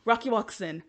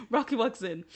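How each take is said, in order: First: Said in the usual way. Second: Rocky walks in said with a giggle; laughing. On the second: Real, not acted. Vlogger retelling Rocky's entrance, still laughing. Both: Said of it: "I'm sorry".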